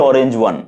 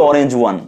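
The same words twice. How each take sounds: Both takes have the same delivery.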